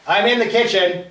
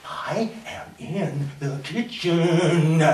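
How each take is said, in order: First: Raised voice answering a call; loud, slightly higher reply. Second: Very slow, word by word; deliberate, drawn-out restraint; forced patience. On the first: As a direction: call back to the next room. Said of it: "I call out". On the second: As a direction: spell it out slowly at normal volume. Repeats answer with forced patience. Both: Acted.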